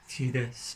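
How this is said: The name is said in an American way. "Americans I think pronounce it Tidus"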